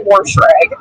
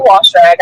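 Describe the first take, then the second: First: "wash rag" said as "warsh rag"; wash with added R. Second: Said in the usual way. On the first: Shown as a demonstration. Caller showing the pronunciation she avoids, "warsh" with an R. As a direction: put an R before the sh in "wash". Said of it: "I don't say wash rag". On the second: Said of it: "I don't say it the way".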